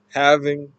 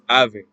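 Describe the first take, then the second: First: It is said with a standard accent. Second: It is said with a Cockney accent. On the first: "instead of saying having" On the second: "it would be having"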